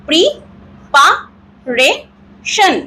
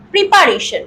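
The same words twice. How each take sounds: First: preparation as pri, pa, re, shan with pauses; four slow separate beats on preparation; broken into four syllables. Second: Said in the usual way. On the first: Shown as a demonstration. (Preparation চার ভাগে ভেঙে ভেঙে) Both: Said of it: "এইভাবে যদি আমরা".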